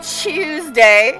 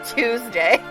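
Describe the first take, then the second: First: It is said with a British pronunciation. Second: It is said with an American pronunciation. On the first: The speaker calls it wrong. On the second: The speaker calls it right.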